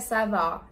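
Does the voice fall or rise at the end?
fall. The pitch falls at the end, like a statement. It answers that all is fine. "vous pouvez répondre à ça va en disant ça va, ça va avec l'intonation"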